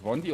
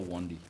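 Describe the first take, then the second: First: "Wondi" opened with a V, "Vondi"; V pronunciation. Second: "Wondi" with an English W; W pronunciation. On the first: Host checking a listener's name, "Wondi" said as "Vondi". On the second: Host checking a listener's name, "Wondi" with English W. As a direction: round the lips to open "Wondi", no V sound. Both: Shown as a demonstration. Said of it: "Is it Wondi or Wondi".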